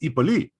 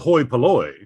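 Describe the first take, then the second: First: The first vowel sounds like 'ee' without an h. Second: The first vowel sounds like 'hoy' with an h. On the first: This is the modern Greek pronunciation. "in modern Greek pronounced the ipoli" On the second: This is the older ancient pronunciation. "what used to be called, pronounced the hoi polloi"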